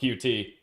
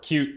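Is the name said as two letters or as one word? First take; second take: letters; one word. First: It is said as two separate letters. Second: It is said as one word, 'cute'. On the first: "depending on how uh, you pronounce it" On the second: "or cute"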